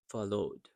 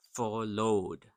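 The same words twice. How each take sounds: First: "followed" with its second O quiet and quick. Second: "followed" as two full, drawn-out syllables, FOR-LOAD; over-pronounced followed. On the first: Teacher models for learners, "followed" with a reduced second vowel. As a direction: stress FOL in "followed", pass lightly over the ending. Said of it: "the second O that's quiet and quick". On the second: Teacher showing learners what not to say, "followed" over-pronounced. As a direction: give both O's in "followed" full weight. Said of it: "So you don't say". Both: Shown as a demonstration.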